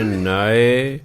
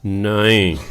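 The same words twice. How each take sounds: First: ਨਾਏ with a final e sound; Persian pronunciation. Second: ਨਾਈ with a final long i; Hindi pronunciation. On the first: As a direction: say ਨਾਏ ending in -ae. (ਨਾਏ ਦਾ ਫਾਰਸੀ ਉਚਾਰਨ) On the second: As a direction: say ਨਾਈ ending in -ai. (ਨਾਈ ਦਾ ਹਿੰਦੀ ਉਚਾਰਨ) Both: Shown as a demonstration. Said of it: "ਇਹਦੇ ਦੋ ਉਚਾਰਨ ਨੇ".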